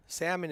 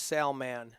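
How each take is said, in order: First: Salmon run together as SAM-un, L swallowed; slurred name pronunciation. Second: Salman as SAL-man, L sounded, full "man"; corrected name pronunciation. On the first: Commentator quoting the wrong name, swallowed-L pronunciation. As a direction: say Salmon like the fish, weak second syllable. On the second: Commentator showing how the player's name goes, careful pronunciation. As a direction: give Salman two clear syllables. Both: Shown as a demonstration. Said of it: "Salmon is pronounced Salman".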